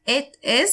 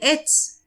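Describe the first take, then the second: First: Two full words are said separately. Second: The words are contracted into one syllable.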